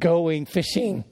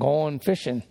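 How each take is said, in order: First: The final g sounds are pronounced. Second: The final g sounds are dropped. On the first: "instead of" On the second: "the tendency is to not pronounce a G at the end of a word"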